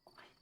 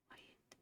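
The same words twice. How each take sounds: First: Said in the usual way. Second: "Quiet." fully whispered, drawn out. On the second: Shown as a demonstration.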